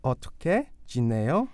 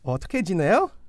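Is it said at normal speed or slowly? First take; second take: slowly; normal speed. First: It is said slowly. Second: It is said at normal speed.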